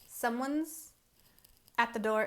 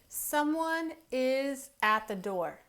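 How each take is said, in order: First: Is shrinks to a z sound after someone. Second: The word is is said in full. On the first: "we say someone's at the door" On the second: "instead of saying someone is at the door"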